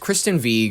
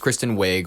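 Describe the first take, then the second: First: Wiig is said with a Norwegian-style pronunciation. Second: Wiig is said with a plain English pronunciation. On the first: "which is how you're supposed to pronounce it, according to the Norwegian whatever" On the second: "people go, oh, you're being a douche. It's Kristen Wiig"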